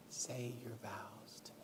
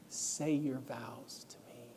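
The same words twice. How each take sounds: First: A last, barely audible plea; fainter whisper. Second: Slow, breathy whisper, barely voiced; hushed plea from a weak voice. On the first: Retold or imitated. Dying wife repeats her plea, fainter whisper. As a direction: whisper fading almost to nothing. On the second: Weak wife whispers her plea from the hospital bed. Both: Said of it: "she was whispering to me".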